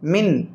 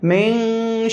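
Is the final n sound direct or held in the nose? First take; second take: direct; held. First: The n is a short, direct nasal sound. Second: The n is hidden in the nose and held. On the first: "direct हमने आवाज़ को नाक में लाया" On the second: "नाक में ले जाकर छुपा कर थोड़ा सा रखेंगे"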